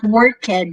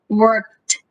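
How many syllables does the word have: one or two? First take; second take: two; one. First: The ending is said as a separate syllable. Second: The ending joins the word as one syllable. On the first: The speaker calls it wrong. "so it's not worked" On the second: The speaker calls it right. "it's worked, irked, R K and T together"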